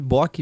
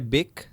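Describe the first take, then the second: First: The vowel sounds like an 'o'. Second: The vowel sounds like an 'e'. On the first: It is the easier pronunciation that follows the spelling. "como tá escrito ali" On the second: It is the original German pronunciation. "como se fosse com E, porque o O é tremado"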